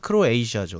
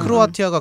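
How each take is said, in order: First: The name has an 'sh' sound before the end. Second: The name has a 't' sound before the end.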